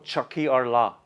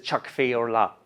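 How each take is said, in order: First: The first word is said without an f sound. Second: The first word is said with an f sound. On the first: This is the Northern Ireland dialect form. "dijo Chucky or La ... la F no se pronuncia en Irlanda del Norte" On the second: This is the form used outside Northern Ireland. "en vez de Chuck Fee or La"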